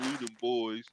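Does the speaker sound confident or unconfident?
unconfident. It is said weakly, without conviction. The speaker doubts the team. "it was more like, man"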